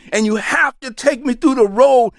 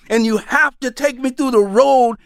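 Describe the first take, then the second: No difference in how they are said.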